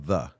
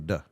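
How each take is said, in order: First: The word begins with a 'th' sound. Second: The word begins with a 'd' sound. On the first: "pronounce the th hard like we do" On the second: "They say duh"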